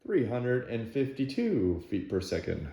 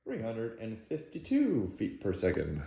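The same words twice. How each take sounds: First: Flat robotic number readout; monotone machine-like reading; half robot voice. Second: Flat, even robotic readout; half robot voice. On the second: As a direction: read the numbers like a machine. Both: Real, not acted. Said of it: "Why do I sound like a robot?".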